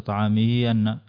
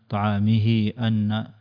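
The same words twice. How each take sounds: First: The vowel after the ha is short. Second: The vowel after the ha is long. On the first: The speaker calls it wrong. "وليس" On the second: The speaker calls it right. "إذا أردت عدم القصر"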